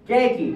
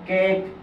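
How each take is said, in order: First: The word ends with an extra 'ee' vowel. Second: The word ends on the consonant, no vowel. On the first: The speaker calls it wrong. "কেকি এভাবে বলেন না" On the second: The speaker calls it right. "ইয়ের উচ্চারণ করেন না"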